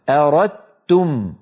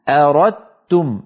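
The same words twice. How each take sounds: The two takes are said the same way.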